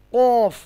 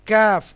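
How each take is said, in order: First: Heavy throaty কফ; a round, dark কফ; heavy qaf. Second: কাফ said light and high; crisp light কাফ; a thin, forward কাফ; thin kaf. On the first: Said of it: "কফ মোটা আওয়াজ". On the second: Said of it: "কাফ পাতলা আওয়াজ". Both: Shown as a demonstration.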